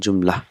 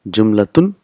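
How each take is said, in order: First: The word ends without the -tun ending. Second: The word ends with the full -tun ending.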